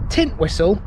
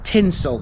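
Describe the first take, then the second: First: The middle 'twist' sound is fully pronounced. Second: The middle 'twist' sound is dropped entirely. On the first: The speaker calls it wrong. "This isn't Tintwistle" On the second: The speaker calls it right. "it's Tinsel. You have to think Christmas"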